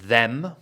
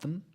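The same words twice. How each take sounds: First: The word is said in its full form. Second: The word is reduced to a weak form. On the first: "Rather than them" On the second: "about them"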